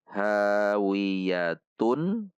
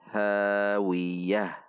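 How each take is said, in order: First: The word ends with a tun sound. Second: The word ends with an h sound. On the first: The reading continues without stopping. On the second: The reading stops at the end of the verse.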